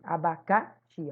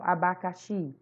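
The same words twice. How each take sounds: First: The stress falls on the third syllable. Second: The stress falls on the last syllable. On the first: The speaker calls it wrong. "se você quiser dizer que abacaxi é, tá forte no K" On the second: The speaker calls it right. "se você pronunciar normal, abacaxi, você realmente puxa no chi"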